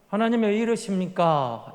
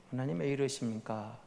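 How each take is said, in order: First: Said in the usual way. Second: Soft, low sigh of a plea to God; quiet complaint. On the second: Shown as a demonstration. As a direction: murmur the complaint under your breath. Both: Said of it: "이런 식으로".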